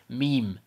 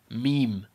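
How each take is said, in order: Both takes have the same delivery.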